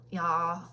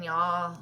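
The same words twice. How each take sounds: First: Y'all as one Southern syllable with a questioning rise; Kentucky y'all. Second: Drawn-out Southern y'all said slow; Kentucky y'all. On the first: Seller asks viewers if they hear her Kentucky accent. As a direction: toss out y'all, Kentucky style. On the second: Kentucky seller showing her accent to viewers, Southern drawl. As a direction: show off the Kentucky twang on y'all. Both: Shown as a demonstration. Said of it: "Can y'all tell by my accent".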